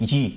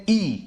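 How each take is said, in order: First: "ی" said yee, with an added y; wrong pronunciation. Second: "ای" as pure long ee, no y; correct pronunciation. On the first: Teacher demonstrating the mistaken letter E, wrong pronunciation. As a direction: start "ی" on a y glide. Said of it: "غلط ہے، یہ بالکل غلط ہے". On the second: Teacher giving learners the proper letter E, correct pronunciation. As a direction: begin "ای" straight on the ee vowel. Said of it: "اس کا pronunciation ہے ای". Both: Shown as a demonstration.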